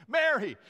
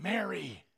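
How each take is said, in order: First: Mary called out higher and louder with a laugh; excited call. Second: Said in the usual way. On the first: Retold or imitated. Jesus calls Mary by name, excited and laughing. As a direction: let the second Mary burst out joyfully. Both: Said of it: "It, it was an excited statement".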